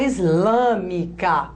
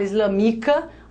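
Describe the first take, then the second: First: The stress is on the third-to-last syllable. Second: The stress is on the second-to-last syllable. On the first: The speaker calls it right. "A gente fala islâmica. Conta, ó. Toda a proparoxítona é acentuada" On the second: The speaker calls it wrong. "a gente fala islamica"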